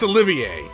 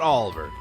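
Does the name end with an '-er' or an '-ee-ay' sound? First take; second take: -ee-ay; -er. First: The name ends with an '-ee-ay' sound. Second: The name ends with a plain '-er' sound. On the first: The speaker calls it right. "That's Olivier" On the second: The speaker calls it wrong. "that's not Oliver"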